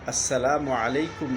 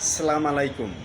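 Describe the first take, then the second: First: It starts with assalamu, ending salam in u. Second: It starts with salam, without the initial as. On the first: It means peace be upon you. The speaker calls it right. "এভাবে হলো শুদ্ধ উচ্চারণ" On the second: It means camel entrails are for you. The speaker calls it wrong. "এই কথাটির অর্থ হলো উটের নারু নারী ভুঁড়ি আপনার জন্য"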